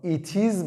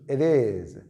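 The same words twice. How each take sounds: First: "it is" with a clear T, words apart; separated words. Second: "it is" linked, T softened to a quick D, like "idiz"; correct pronunciation. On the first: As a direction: say "it is" as two careful words. («it is» جداجدا با ت واضح) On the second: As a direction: demonstrate "it is" run together as "idiz". (تلفظ درست «it is»، سرهم مثل «ایدیز») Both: Shown as a demonstration. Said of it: "تلفظ درست it is".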